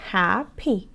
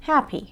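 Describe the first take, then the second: First: "happy" broken into two separate beats, hap - py; split into syllables. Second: Said in the usual way. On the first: Shown as a demonstration. Teacher showing students "happy" has two parts, split into syllables. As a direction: say "happy" slowly, pausing between hap and py. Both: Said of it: "دو بخشه".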